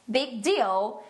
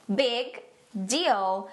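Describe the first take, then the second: First: Said in the usual way. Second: Slow, separated "Big" and "deal"; word-by-word model. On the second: Shown as a demonstration. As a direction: pause between the words for learners. Phrase broken down for learners. (palavra por palavra, devagar)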